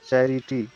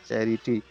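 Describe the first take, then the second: First: चैरिटी sounded out in three distinct syllables. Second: Said in the usual way. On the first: Shown as a demonstration. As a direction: separate each syllable of चैरिटी. (चैरिटी को तीन हिस्सों में तोड़कर बोलें) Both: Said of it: "जैसे आप उसका उच्चारण कीजिएगा".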